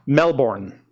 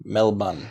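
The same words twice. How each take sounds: First: "Melbourne" with a full -born and the r sounded; the American-style "Melbourne", MEL-born. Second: "Melbourne?" said MEL-bun, quiet and clipped; soft "Melbourne?" as MEL-bun; the Australian-style "Melbourne?", MEL-bun. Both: Shown as a demonstration. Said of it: "different pronunciations of Melbourne".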